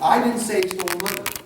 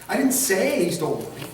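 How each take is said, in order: First: The word 'I' carries the main stress. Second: The word 'say' carries the main stress. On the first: Someone else said it. "who did say it then?" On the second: It was implied rather than said. "how did you imply it?"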